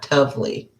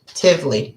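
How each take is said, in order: First: The syllable has an 'oh' vowel, like 'tov'. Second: The syllable has an 'ih' vowel, like 'tiv'. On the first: The speaker calls it wrong. "not tovely" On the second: The speaker calls it right.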